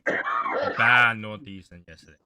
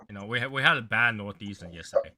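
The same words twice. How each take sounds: First: Slow, louder, leaning on bad; emphatic repeat. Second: Said in the usual way. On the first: Real, not acted. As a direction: stretch out "A bad northeastern yesterday" with weight on "bad".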